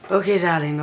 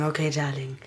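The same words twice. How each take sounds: First: Said in the usual way. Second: Lower, softer okay darling; murmured to herself, fond; soft aside. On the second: Acted. Repeats phrase, lower and softer.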